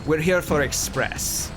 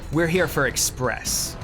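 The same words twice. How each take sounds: First: It is spoken in a put-on Russian accent. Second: It is spoken in the speaker's normal accent. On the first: The speaker calls it right. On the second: The speaker calls it wrong.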